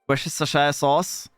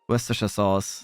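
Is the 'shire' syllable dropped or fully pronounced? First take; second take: pronounced; dropped. First: The word is said with a full 'shire' syllable. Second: The word is said without a full 'shire' syllable. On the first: The speaker calls it wrong. "you don't even say the Shire sauce" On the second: The speaker calls it right. "There we go"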